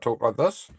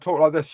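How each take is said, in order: First: It is spoken in a New Zealand accent. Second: It is spoken in a British accent. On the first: "I'm a New Zealander. I talk like this" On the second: "If I was British, yeah, I'd talk like this"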